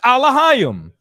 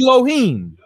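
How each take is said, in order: First: The word begins with an 'ah' sound. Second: The word begins with an 'eh' sound. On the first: This is how the speaker's own group says it. "We pronounce it Alahayim" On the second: This is how another group says it. "they pronounce it Elohim"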